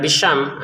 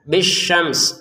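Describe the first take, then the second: First: The final s sound is dropped. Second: The final s sound is clearly pronounced. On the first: The speaker calls it wrong. "sinnya kan tidak terbaca nanti" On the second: The speaker calls it right. "kita tetap kita baca sinnya walaupun sukun"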